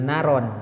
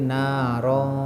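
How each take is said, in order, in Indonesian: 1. N di akhir diucapkan sebagai n biasa. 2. N di akhir tersembunyi dalam bunyi sengau. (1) "Jangan naron" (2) "tapi narong"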